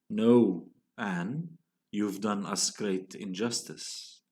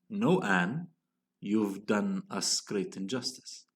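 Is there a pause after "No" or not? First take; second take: pause; no pause. First: There are pauses after No and after Anne. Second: It runs on without pauses around Anne.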